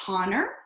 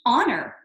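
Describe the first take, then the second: First: The word begins with a sounded H. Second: The word begins with a silent H. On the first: The speaker calls it wrong. "Do I pronounce this first one as honor? Oh no" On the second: The speaker calls it right. "It's as if the H is silent"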